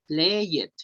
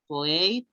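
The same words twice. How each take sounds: First: The ending is said as a separate 'ed' syllable. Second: The ending is not said as a separate syllable. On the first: The speaker calls it wrong. "No se dice" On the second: The speaker calls it right. "Se dice"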